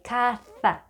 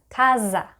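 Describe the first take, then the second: First: The middle consonant is a th sound. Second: The middle consonant is a buzzing z sound. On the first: The speaker calls it right. "the way you would pronounce T H in think, like caza" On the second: The speaker calls it wrong. "people pronounce this word as casa, but really this sound does not exist in Spanish"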